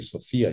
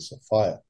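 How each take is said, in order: First: The middle syllable sounds like 'fear'. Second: The middle syllable sounds like 'fire'. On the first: The name carries fear in it. The speaker calls it wrong. "you don't say Sophia" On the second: The name carries fire in it. The speaker calls it right. "you say Sophia"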